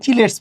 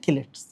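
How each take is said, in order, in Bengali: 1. শব্দটি 'ch' ধ্বনি দিয়ে শুরু হয়। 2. শব্দটি 'k' ধ্বনি দিয়ে শুরু হয়। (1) "অনেকে চিলেটস বলে" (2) "এ মেইন উচ্চারণ হচ্ছে কিলেটস"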